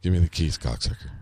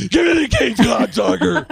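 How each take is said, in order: First: Low, bored mumble fading away; bored low reading, last word nearly lost; Gabriel Byrne. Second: Very high, loud hammed-up shout; over-the-top high bellow; Stephen Baldwin. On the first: Retold or imitated. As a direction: toss it off low and uninterested. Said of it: "like, bored". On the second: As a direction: yell the lineup line at full tilt. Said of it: "But, but Stephen Baldwin".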